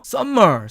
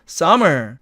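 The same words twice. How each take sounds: First: The m sound is held long, as two. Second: The m sound is short, said only once. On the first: The speaker calls it wrong. "summer 이렇게 알고 있습니다" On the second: The speaker calls it right. "summer 이렇게 발음을 하는데"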